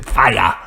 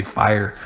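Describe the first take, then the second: First: Mock Irish accent, "fire" as "fai-ah". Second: Said in the usual way. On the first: Shown as a demonstration. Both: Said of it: "That's how they say fire".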